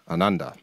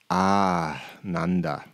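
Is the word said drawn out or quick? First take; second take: quick; drawn out. First: The word is short and quick, with no emphasis. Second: The word is longer and drawn out, with emphasis. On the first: Lacking joy. "is short. It's quick, and there's no emphasis really on any of the letters" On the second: Joy or divine bliss. "the other pronunciation"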